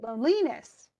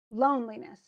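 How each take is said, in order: First: Loneliness as lone-LEE-ness; wrong stress. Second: Loneliness with long LONE, tiny li; stress on LONE. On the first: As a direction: exaggerate the middle syllable of loneliness. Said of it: "That sounds weird". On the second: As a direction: let the middle of Loneliness almost disappear. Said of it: "Lee almost disappears". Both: Shown as a demonstration.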